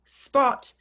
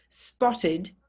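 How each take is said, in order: First: Spot said as a single short syllable; one syllable. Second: Spotted in two syllables, spot-tid; extra syllable. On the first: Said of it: "one syllable". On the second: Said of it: "you add an extra syllable". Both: Shown as a demonstration.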